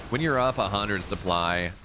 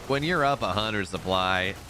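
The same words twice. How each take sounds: The two takes are said the same way.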